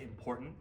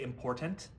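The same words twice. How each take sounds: First: The final t sound is dropped. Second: The final t sound is clearly pronounced. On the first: "my Long Island accent comes out a little bit. I actually don't say the last letter of the word" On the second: "I don't say important"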